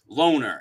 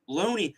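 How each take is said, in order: First: The name ends in an 'er' sound. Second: The name ends in an 'ee' sound. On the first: The ordinary pronunciation. The speaker calls it right. "if you're a real normal person, it's Loner" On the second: A mocked, affected pronunciation. The speaker calls it wrong.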